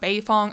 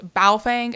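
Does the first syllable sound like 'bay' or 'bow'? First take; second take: bay; bow. First: The first syllable sounds like 'bay'. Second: The first syllable sounds like 'bow'. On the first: The speaker calls it wrong. "I know I was saying it wrong" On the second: The speaker calls it right. "I finally got it right"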